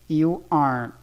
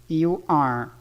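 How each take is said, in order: No difference in how they are said.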